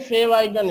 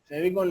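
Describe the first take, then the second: First: It is said as two separate words, fav icon. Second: It is said as one blended word, favicon. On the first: The speaker calls it right. "ये फेव आइकन है, फेविकॉन नहीं" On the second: The speaker calls it wrong. "लोग काफी pronounce करते हैं फेविकॉन। फेविकॉन नहीं है ये"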